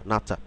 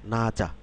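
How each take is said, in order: First: The second syllable starts with an aspirated ch. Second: The second syllable starts with a plain j. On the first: The speaker calls it right. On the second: The speaker calls it wrong.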